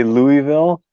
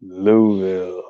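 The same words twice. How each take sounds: First: "Louisville" as LOO-ee-vil, middle EE sounded; "Louisville" said the outsider's way, LOO-ee-vil; Californian pronunciation. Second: "Louisville" drawn out slow and low as LOO-vul; imitating a local's slow, low "Louisville", LOO-vil; local pronunciation. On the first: Shown as a demonstration. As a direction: give "Louisville" three full syllables. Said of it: "I say Louisville". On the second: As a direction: squash "Louisville" to two syllables, no EE. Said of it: "and then somebody said".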